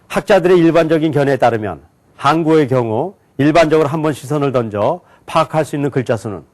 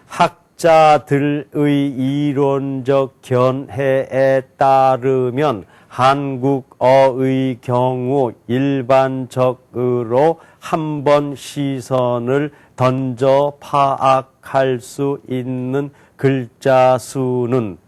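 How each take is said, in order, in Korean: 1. 묶어서 아주 빠르게 읽었어요. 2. 한 글자씩 느리게 읽었어요. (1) "묶어서 굉장히 빨리 읽었어요" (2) "한자 한자씩 또박또박 읽겠습니다"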